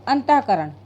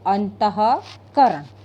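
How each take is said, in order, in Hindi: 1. इसे 'ant' के बाद h की ध्वनि के बिना बोला जाता है। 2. इसे 'ant' के बाद h की ध्वनि के साथ बोला जाता है। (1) "ऐसे बोलेंगे" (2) "विसर्ग के साथ में बोलेंगे"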